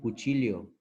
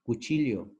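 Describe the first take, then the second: First: The 'll' is sounded like 'ly'. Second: The 'll' is sounded like 'ly'.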